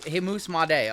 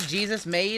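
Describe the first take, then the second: First: The first name sounds like hay-SOOS. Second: The first name sounds like GEE-zus. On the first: The speaker calls it right. "I'm gonna have to remember that" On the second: The speaker calls it wrong. "It's not Jesus made"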